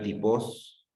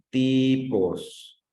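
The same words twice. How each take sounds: First: "tipos" said as ti-POS, rising at the end; stress on last syllable. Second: TIIIpos, "ti" long, raised and falling away on "pos"; stress on first syllable. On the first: Teacher showing the wrong reading, "tipos" stressed on final "pos". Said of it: "si no lo leo como tipos, diría". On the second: Teacher showing where the voice rises, "Tipos" stressed on "ti". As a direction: stretch and lift the "ti" of "Tipos". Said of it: "donde escuches que tu voz se eleva más". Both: Shown as a demonstration.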